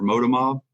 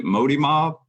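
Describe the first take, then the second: First: Moda Mob, first word ending in "uh"; alternative pronunciation. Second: Modi Mob, first word ending in "ee"; tentative pronunciation. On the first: Host offers founders the other pronunciation, Moda Mob. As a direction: say "Moda" with a final "uh" before Mob. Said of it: "Moda Mob and, and obviously". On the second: Host checks brand name with founders, tentative Modi Mob. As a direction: say "Modi" with a final "ee" before Mob. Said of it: "is it Modi Mob or Moda Mob". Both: Real, not acted.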